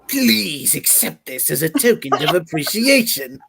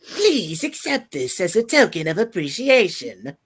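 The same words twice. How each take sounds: First: The put-on voice is pitched lower. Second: The put-on voice is pitched higher. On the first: "Should I do the regular Joker voice?" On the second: "pitch it higher"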